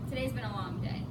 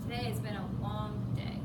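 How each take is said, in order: First: It is said in a plain, neutral tone. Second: It is said in a weary, worn-out tone. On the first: It is just an ordinary remark about the day. "It's nothing special" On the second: The speaker is really exhausted.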